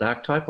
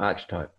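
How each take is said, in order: First: "archetype" as ARK-type, hard K and two syllables; pronunciation with K. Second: "archetype" as ARCH-type, CH as in "church"; pronunciation with CH. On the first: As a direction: say "archetype" with a hard K, no middle vowel. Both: Shown as a demonstration. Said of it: "Is it archetype or archetype".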